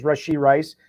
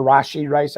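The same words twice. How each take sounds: First: Rashee with a short "uh" first vowel; first syllable of Rashee reduced to "ruh"; alternative name pronunciation. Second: Rashee with an open "ah" first vowel; first syllable of Rashee opened to "rah"; alternative name pronunciation. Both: Shown as a demonstration. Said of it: "I never know how to, uh, pronounce it".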